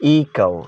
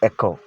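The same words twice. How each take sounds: First: The first vowel is a long 'ee' sound. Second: The first vowel is a short 'eh' sound. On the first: The speaker calls it right. "that's echo" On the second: The speaker calls it wrong. "not echo"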